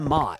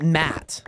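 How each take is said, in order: First: The vowel sounds almost like an 'o'. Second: The vowel sounds like a flat 'a'. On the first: The speaker calls it right. "Like almost like an O sound" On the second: The speaker calls it wrong. "I wouldn't pronounce that Matt"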